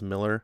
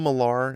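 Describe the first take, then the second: First: The last syllable sounds like 'ler'. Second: The last syllable sounds like 'lar'. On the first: This is how the man himself says it. The speaker calls it right. "I know his name's pronounced Miller" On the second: This follows the spelling with A R. The speaker calls it wrong. "I call him Millar"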